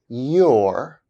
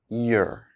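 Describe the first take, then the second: First: The word is said fully with its full vowel. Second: The word is reduced with a weak vowel. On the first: "I'll say the strong forms of the words first" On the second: "then their weak forms"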